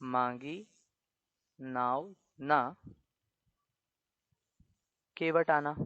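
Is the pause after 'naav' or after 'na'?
after na. The pause falls after the word na. The boat was not asked for; the boatman should come.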